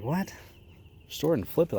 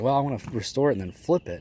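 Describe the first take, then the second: First: Higher, disbelieving repeat of restore it and flip it; incredulous echo. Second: Said in the usual way. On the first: Retold or imitated. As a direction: throw his plan back at him in disbelief. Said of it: "And I'm like". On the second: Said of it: "he's like".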